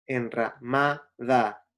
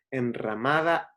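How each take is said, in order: First: "enramada" slowly split, MA and DA set apart; syllable by syllable. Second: Said in the usual way. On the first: Shown as a demonstration. Teacher showing students the rhyming syllables, "enramada" slowly broken up. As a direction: break "enramada" into en-ra, MA, DA. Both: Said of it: "las sílabas ma, da".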